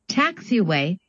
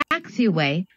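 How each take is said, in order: Both takes have the same delivery.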